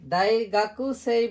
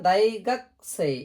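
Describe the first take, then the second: First: The 'u' after 'gak' is clearly pronounced. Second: The 'u' after 'gak' is dropped. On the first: The speaker calls it wrong. "দাইগাকুসেই বলবো না" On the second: The speaker calls it right. "দাইগাকসেই একবারে বলে যাব"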